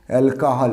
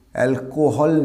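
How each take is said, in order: First: অ্যালকোহল as "al-ka-hal"; corrected pronunciation. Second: অ্যালকোহল as "al-ko-hol"; wrong pronunciation. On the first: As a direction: say অ্যালকোহল with an open "ka". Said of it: "উচ্চারণটা কি?". (সঠিক অ্যালকোহল, "অ্যাল-কা-হাল") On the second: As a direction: say অ্যালকোহল with a round "ko". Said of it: "অ্যালকোহল না". (ভুল অ্যালকোহল, "অ্যাল-কো-হল") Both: Shown as a demonstration.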